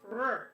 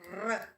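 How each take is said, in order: First: The r sound is not rolled. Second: The r sound is rolled with the tongue. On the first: The speaker calls it wrong. "it's not r" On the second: The speaker calls it right. "make sure you roll your tongue"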